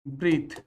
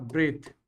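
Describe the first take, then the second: First: "ब्रीथ" with a long ee vowel; long-ee pronunciation. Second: "ब्रेथ" with an e vowel; short-e pronunciation. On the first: English teacher showing students the verb, "ब्रीथ" said with long ee. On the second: English teacher showing students the noun, "ब्रेथ" said with an e vowel. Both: Shown as a demonstration. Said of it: "ये ब्रीथ है और ये ब्रेथ है".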